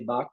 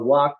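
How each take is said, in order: First: The word begins with a B sound. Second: The word begins with a W sound. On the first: "Bengalis will say Bak" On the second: "pronounced like W"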